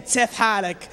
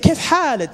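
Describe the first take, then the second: First: The first word begins with a ts sound. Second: The first word begins with a k sound. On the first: The speaker calls it wrong. "they try to say tif halik. ... It doesn't work" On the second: The speaker calls it right. "And you say"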